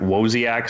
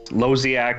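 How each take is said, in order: First: The name begins with a W sound. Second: The name does not begin with a W sound.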